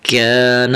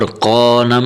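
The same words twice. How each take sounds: First: کان as "kaa-na" with a light front k; thin, light kaf. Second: قان as "qaw-na" with a thick back q; heavy qaf, wrong. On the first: Teacher contrasting the two letters, light thin k in کان. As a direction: keep the vowel unrounded and thin in کان. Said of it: "یہ باریک کرنا ہے". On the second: Teacher contrasting articulation points, heavy rounded q in قان. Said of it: "مخرج میں بھی فرق". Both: Shown as a demonstration.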